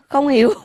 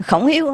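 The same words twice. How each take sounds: First: "không hiểu" as the name Khổng Hiếu read with its tones dropped; toneless misreading. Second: Said in the usual way. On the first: Shown as a demonstration. (đọc "không hiểu" mất dấu như người Mỹ)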